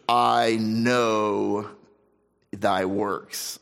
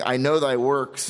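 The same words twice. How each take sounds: First: It is said in a grave, ominous tone. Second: It is said in a warm, approving tone. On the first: Rebuke is coming, not praise. "the intonation, I think, is very different" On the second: Praise is coming next. "rather than saying"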